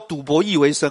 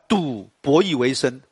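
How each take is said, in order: First: The break comes after the second syllable. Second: The break comes after the first syllable. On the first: He gambled and also made his living by chess. The speaker calls it wrong. "你不能说赌博弈为生啊，那就ridiculous。你不能赌博，还要弈为生" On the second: He made his living by gambling at games. The speaker calls it right. "不是这样，赌博弈为生啊"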